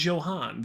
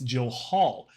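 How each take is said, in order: First: The name ends with an n sound. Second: The name ends with an l sound. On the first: The speaker calls it wrong. "not Johan" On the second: The speaker calls it right. "There's an L there, so it's Johal"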